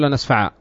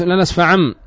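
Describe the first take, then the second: First: لنسفع ending in an open long aa; pausal form. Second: لنسفعم with a nasal ending before continuing; connected form. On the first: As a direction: stop on لنسفع with alif, no nasal. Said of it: "لما ت-، تقف عندها تقول". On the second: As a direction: sound the tanween at the end of لنسفعم. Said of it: "تقف عندها تقول لنسفع". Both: Shown as a demonstration.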